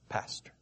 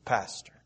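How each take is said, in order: First: Pastor said much softer, gently; hushed and tender, a word that soothes; soft comforting. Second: Said in the usual way. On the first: Shown as a demonstration. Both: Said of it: "The word itself fosters comfort".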